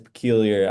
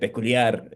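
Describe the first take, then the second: First: The name is pronounced the English way. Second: The name is pronounced the Spanish way. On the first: "In English, that's peculiar" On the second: "in Spanish, it's peculiar"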